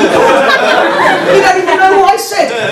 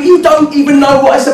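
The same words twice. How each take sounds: First: Very high, drawn-out protest; exasperated retort. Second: High-pitched retort at normal pace; exasperated comeback. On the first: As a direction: wail the comeback slowly, mock-aggrieved. Mock argument going in circles. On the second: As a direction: fire the protest straight back. Argument loops, retort repeated. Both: Retold or imitated.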